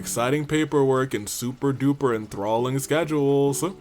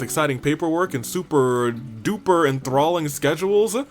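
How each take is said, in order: First: The line is said flatly on one pitch. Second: The line is said with lively, varied pitch.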